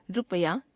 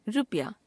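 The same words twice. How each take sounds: First: रुपया shown in its faulty form, rising "rupaya"; wrong pronunciation. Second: Said in the usual way. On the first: Shown as a demonstration. Teacher showing a common error, रुपया with rising end. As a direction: say रुपया as "ru-pa-ya", ending upward. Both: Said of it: "अशुद्ध".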